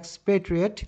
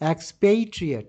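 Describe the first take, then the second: First: The second syllable has a short 'e' vowel. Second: The second syllable has a long 'ay' vowel. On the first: "British হচ্ছে" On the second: "American হচ্ছে"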